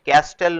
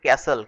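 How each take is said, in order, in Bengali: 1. t ধ্বনিটি মাঝখানে উচ্চারিত হয়। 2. t ধ্বনিটি একেবারেই বাদ যায়। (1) "ক্যাস্টেল নয় কিন্তু" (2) "এটার উচ্চারণ হচ্ছে ক্যাসেল"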